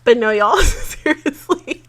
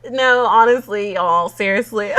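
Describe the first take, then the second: First: Slow high laughing plea; laughing through words. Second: Excited. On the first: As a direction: say it while giggling. Laughing emotional outro. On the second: Emotional laughing outro. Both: Real, not acted.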